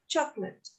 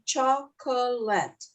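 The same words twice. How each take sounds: First: The word is said with two syllables. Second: The word is said with three syllables. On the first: The speaker calls it right. "we only have two syllables, not three. We say chocolate" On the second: The speaker calls it wrong. "We don't say chocolate. Uh-uh"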